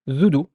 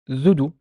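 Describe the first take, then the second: No difference in how they are said.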